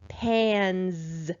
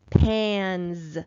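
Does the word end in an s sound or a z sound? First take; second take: z; z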